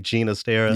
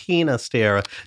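First: The name is said with a Catalan pronunciation. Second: The name is said with a Spanish pronunciation. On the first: This is how the composer preferred his name said. "he preferred the Catalan pronunciation of his name" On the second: This is how listeners insisted the name is said. "well, actually, it's Ginastera"

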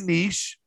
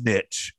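First: The word is said the fancier, posher way. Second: The word is said the plain, everyday way. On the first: This way sounds posh and refined. "some people say niche" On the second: This is the usual way to say it. "I think it's niche"

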